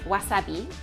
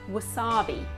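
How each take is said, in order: First: It is said with Japanese pronunciation. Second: It is said with English pronunciation. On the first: "instead of saying wasabi" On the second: "we might say wasabi. ... We just anglicize it"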